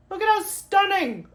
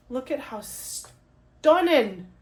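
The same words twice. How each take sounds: First: High, loud gushing squeal; squealed admiration. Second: Slow, savouring awe; drawn-out admiration. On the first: Vlogger shows off the artwork, squealing in delight. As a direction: gush it in a much higher voice. Admires the card, repeated higher. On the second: Vlogger shows off the artwork, slow and admiring. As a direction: linger on the words in wonder. Admires the card, first take. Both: Real, not acted.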